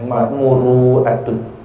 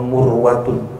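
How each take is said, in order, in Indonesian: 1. Bagian tengahnya memiliki hentian glotal. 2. Bagian tengahnya memiliki bunyi 'w'. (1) "dengan hamzah" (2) "hamzahnya diganti dengan waw"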